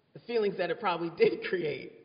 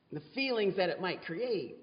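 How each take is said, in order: First: Quicker, with "did" punched through a small laugh; stress on did. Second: Said in the usual way. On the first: Real, not acted. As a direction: lean hard on "did", amused. Self-correction, laughs on the repeat.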